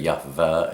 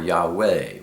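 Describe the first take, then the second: First: The middle consonant is a v sound. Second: The middle consonant is a w sound. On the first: The speaker calls it wrong. "We don't say Yahveh" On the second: The speaker calls it right. "We say Yahweh"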